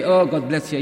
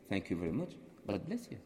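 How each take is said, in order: First: Loud, exaggerated silly blessing; overdone, foolish-sounding well-wishing. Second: Soft, low, gentle thanks; hushed, kindly well-wishing; said with a smile. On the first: Shown as a demonstration. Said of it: "If you say it this way, yeah, you look silly". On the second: Retold or imitated. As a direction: smile gently through a quiet blessing. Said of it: "With a smile, and they loved it".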